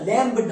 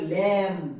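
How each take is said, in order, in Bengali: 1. শব্দটি একটি স্পষ্ট b ধ্বনি দিয়ে শেষ হয়। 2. শব্দটি m দিয়ে শেষ হয়, কোনো b নেই। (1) "এর উচ্চারণটা ল্যাম্ব না" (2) "এর উচ্চারণটা হবে ল্যাম"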